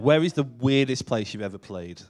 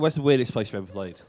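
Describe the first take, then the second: First: Each word is carefully and clearly enunciated. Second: The words are run together casually. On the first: The speaker calls it right. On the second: The speaker calls it wrong.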